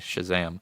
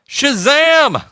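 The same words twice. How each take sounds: First: The word is said at normal volume. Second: The word is yelled loudly. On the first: The speaker calls it wrong. "I can't just say Shazam" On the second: The speaker calls it right. "I have to yell it"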